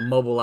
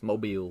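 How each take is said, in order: First: It is pronounced like the gas-station brand name. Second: It is pronounced the local Southern way. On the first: The speaker calls it wrong. "they just assume it's mobile" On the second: The speaker calls it right. "but it's not. It's Mobile"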